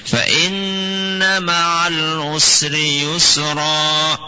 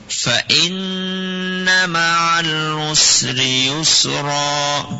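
Both takes have the same delivery.

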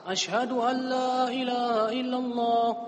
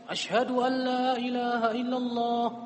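The two takes are said the same way.

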